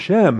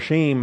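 First: The vowel sounds like the one in 'Shem'. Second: The vowel sounds like the one in 'shame'. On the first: The speaker calls it right. "so we call them" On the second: The speaker calls it wrong. "We don't want to say Noah's sons were"

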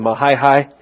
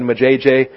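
First: The name is pronounced the local way. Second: The name is pronounced the Texan way. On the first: The speaker calls it right. "It's really Mahaihai" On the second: The speaker calls it wrong. "was just a Texas way of saying it"

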